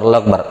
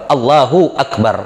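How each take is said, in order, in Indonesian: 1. Kata-katanya saling menyambung dan menghilangkan bunyi. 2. Setiap bunyi diucapkan utuh dan terpisah. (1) "Kehilangan huruf ha-nya, kehilangan huruf alifnya. Ya, disambung" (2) "Kan jelas, beda sekali bacanya"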